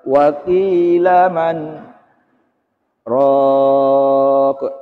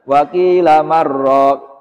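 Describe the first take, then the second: First: A brief stop separates man from raq. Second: The n merges into the r without stopping. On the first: The speaker calls it right. "itu saktah" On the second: The speaker calls it wrong. "Jangan dibaca idgham bila gunah ya"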